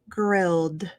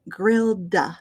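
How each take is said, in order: First: The final D closes with no extra vowel. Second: An extra 'uh' vowel follows the final D. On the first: The speaker calls it right. "We just want to close that D and finish it off" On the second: The speaker calls it wrong. "We don't want grilled duh"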